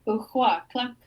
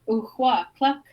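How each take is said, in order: Both takes have the same delivery.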